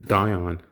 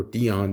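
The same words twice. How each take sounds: First: Dion said as DIE-on; alternative pronunciation. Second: Dion said as DEE-on; alternative pronunciation. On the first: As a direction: say Dion with a long I. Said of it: "or Dion". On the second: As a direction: say Dion with a long E. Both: Shown as a demonstration.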